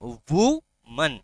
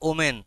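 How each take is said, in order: First: It starts with 'oo' and ends in 'man'. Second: It starts with 'oh' and ends in 'men'. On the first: The speaker calls it right. "It's উমান" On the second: The speaker calls it wrong. "Not ওমেন"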